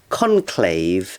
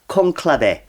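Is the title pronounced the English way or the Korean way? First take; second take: English; Korean. First: The title is said with English pronunciation. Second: The title is said with Korean, Latin-like pronunciation. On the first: "It's called Conclave" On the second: "Conclave in Korean"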